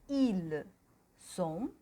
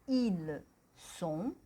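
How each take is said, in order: No difference in how they are said.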